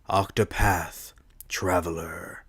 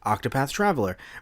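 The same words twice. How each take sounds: First: It is said in a smooth trailer voice. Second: It is said in a plain everyday voice.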